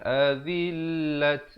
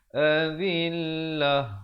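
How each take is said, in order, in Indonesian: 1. Kata itu berakhir dengan bunyi t. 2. Kata itu berakhir dengan bunyi h yang lembut. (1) "kalau baca lat itu salah" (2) "waqafkan dengan ditukarkan kepada bunyi ha"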